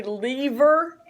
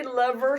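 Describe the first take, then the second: First: Lever with a long e, LEE-ver; long-e pronunciation. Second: Lever with a short e, LEV-er; short-e pronunciation. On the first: Teacher shows others' pronunciation, lever as LEE-ver. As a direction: say lever to rhyme with beaver. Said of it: "some people say lever". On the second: Teacher gives own pronunciation, lever as LEV-er. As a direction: say lever to rhyme with never. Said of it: "I say lever, some people say". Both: Shown as a demonstration.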